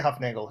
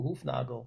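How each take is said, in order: First: The name is pronounced with American English sounds. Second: The name is pronounced with German sounds. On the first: "they say Hufnagel here" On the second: "every time I go to Germany, ... they're like, "Oh, Hufnagel,""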